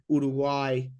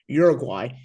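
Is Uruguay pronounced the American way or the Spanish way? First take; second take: Spanish; American. First: It is said with a Spanish-style pronunciation. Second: It is said with an American English pronunciation.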